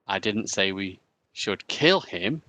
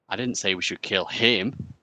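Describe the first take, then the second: First: The stress falls on the word 'kill'. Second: The stress falls on the word 'him'.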